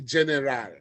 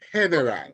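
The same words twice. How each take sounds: First: It is pronounced like the English word. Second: It is pronounced like the Spanish word. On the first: The speaker calls it wrong. "don't go there and say general" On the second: The speaker calls it right. "It's general"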